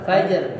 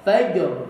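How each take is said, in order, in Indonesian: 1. 'Fa' diucapkan datar dan malas. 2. Suaranya dinaikkan pada 'fa'. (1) "agak agak malas ini gitu" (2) "fa-nya agak dinaikin suaranya"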